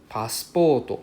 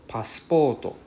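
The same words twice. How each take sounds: The two takes are said the same way.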